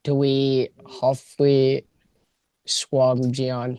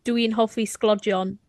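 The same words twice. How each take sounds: First: Very slow, halting "Dwi hoffi sglodion" with "sglodion" garbled; learner's attempt. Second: "Dwi'n hoffi sglodion" in native Welsh; Welsh phrase. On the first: Guest struggling to repeat the Welsh phrase, halting. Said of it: "That was so close". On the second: Host challenging the guest with Welsh. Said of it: "Can you say". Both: Shown as a demonstration.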